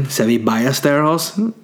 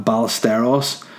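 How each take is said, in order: First: Ballesteros with a Spanish "y" for the double l; Spanish Ballesteros, "ba-yes-teros"; Spanish pronunciation. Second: Said in the usual way. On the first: Shown as a demonstration. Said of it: "as they would say in Spain". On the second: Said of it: "English reading".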